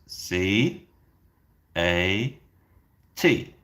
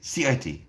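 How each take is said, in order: First: The letters are spelled out slowly. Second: The letters are spelled out quickly. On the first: The speaker calls it right. "Say it like this" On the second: The speaker calls it wrong. "No, don't say it like that"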